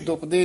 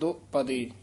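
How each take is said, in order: First: The first syllable is a short 'du', run together. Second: The first syllable is a long 'do', set apart. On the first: The speaker calls it wrong. "ਇਹਨੂੰ ਦੁਪਦੇ ਨਹੀਂ ਕਹਿ ਦੇਣਾ" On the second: The speaker calls it right. "ਡੈਸ਼ ਜੀ ਦੇ ਕੇ ਲਮਕਾ ਕੇ ਉਚਾਰਨ ਕਰਨਾ ਹੈ"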